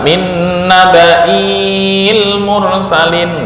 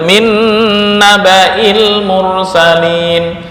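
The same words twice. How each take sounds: First: The vowel after the hamza is drawn out long. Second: The vowel after the hamza is kept short. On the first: The speaker calls it wrong. "nggak boleh dibaca" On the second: The speaker calls it right. "walaupun ada alif tetap dibaca pendek"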